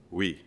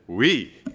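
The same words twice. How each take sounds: First: Low, quiet, unimpressed French "oui"; monotone. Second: Loud French "oui" with a big pitch swoop; much more enthusiastic. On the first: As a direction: imitate a reply with no interest at all. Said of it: "replied with a monotone". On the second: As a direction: imitate someone suddenly lit up with eagerness. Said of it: "with a much more enthusiastic". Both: Retold or imitated.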